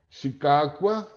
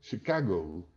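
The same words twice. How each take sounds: First: It is pronounced in its original, non-English way. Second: It is pronounced the way English speakers say it. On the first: This is how the name was said before adaptation. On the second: The name was later adapted to English.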